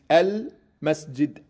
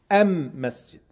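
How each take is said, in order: First: The article is pronounced with an L sound. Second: The article is pronounced with an M sound. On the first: This is the usual form of the article. "Elif Lam, das ist der Artikel" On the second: This is how one group of Arabs speaks. "Anstatt Lam sagen die M"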